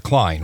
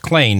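First: "Klein" with a long I, rhymes with line; pronounced Klein. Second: "Klain" with a long A, rhymes with plain; pronounced Klain. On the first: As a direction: say "Klein" with the vowel of "eye". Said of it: "not, not Klein". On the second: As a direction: say "Klain" with the vowel of "day". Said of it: "it's pronounced Klain". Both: Shown as a demonstration.

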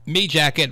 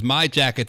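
First: "me" with an ee vowel. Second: Said in the usual way. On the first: Shown as a demonstration. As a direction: contrast "me" against standard my. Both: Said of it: "me jacket versus my jacket".

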